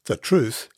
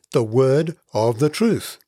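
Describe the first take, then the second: First: Said in the usual way. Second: The word of the TRUTH, slowed, leaning on truth; slow down and land hard on truth; stress on truth. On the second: Shown as a demonstration. Preacher stressing truth to the congregation, slow and weighty. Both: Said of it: "emphasis Paul puts on the word truth".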